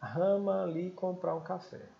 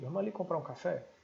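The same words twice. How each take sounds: First: The phrase is said slowly, as in slow motion. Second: The phrase is said at normal conversational speed.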